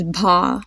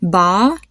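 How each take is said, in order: First: "bha" with a puff of air after the b; airy b-h onset in "bha"; aspirated "bha". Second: "Ba" with a clean b, little air; plain b in "Ba", no h sound; unaspirated "Ba". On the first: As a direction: breathe an h out through the b of "bha". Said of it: "B H A are pretty different". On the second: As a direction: say "Ba" without any puff of breath. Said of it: "hear how B A and B H A". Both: Shown as a demonstration.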